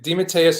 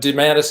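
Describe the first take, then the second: First: The name has its classic Italian pronunciation. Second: The name has an Americanized pronunciation. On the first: "is the the classic Italian pronunciation, which I do prefer" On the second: "is the Americanized version that I that I grew up with"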